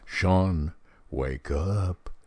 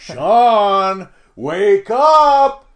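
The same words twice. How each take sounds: First: It is said fairly softly. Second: It is said loudly.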